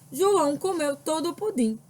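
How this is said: The voice falls calmly at the end. It affirms a fact. "ela é uma frase que está com sentido de afirmação"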